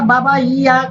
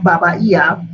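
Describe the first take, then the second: First: Higher, pleading "Baba, yeah"; "Baba, yeah" in a light young voice; Oshun's plea. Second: Said in the usual way. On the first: Acted. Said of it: "So Oshun said". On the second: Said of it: "'cause I like to call her".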